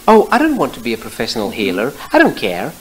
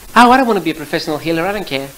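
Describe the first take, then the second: First: It is said slowly. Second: It is said fast.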